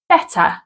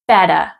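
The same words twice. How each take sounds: First: The middle consonant is a clear T. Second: The middle consonant is a soft D. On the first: "we do pronounce a clear T sound" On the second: "they tend to change this to a soft D sound"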